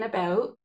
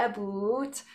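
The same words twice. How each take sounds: First: Said in the usual way. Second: "about" with a Canadian vowel; Canadian accent. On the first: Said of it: "I mean about". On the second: Shown as a demonstration. Speaker from Canada owning up to her accent, Canadian "about". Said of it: "That is my accent".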